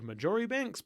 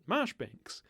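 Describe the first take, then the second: First: The name begins with the full syllables 'Marjori'. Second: The name begins with the single syllable 'Marsh'. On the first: The speaker calls it wrong. "in the episode I called Majoribanks" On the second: The speaker calls it right. "you actually pronounce it"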